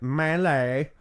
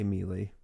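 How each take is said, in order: First: It sounds like 'may-lay', with 'ay' vowels. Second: It sounds like 'mealy', with 'ee' vowels. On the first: This is the form someone insisted was correct. "yelled at us on numerous occasions that it's melee" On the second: This is how the group habitually says it. "I say Mealy"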